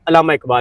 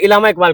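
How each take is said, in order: First: The first word begins with an 'a' sound. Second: The first word begins with an 'i' sound. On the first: The speaker calls it right. "कोई कहता है अल्लामा Iqbal" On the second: The speaker calls it wrong. "ये भी गलत है ना?"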